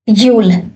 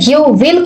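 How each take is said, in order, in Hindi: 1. शब्द मिलकर एक ही सिलेबल में बोले जाते हैं। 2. दो अलग-अलग पूरे शब्द बोले जाते हैं।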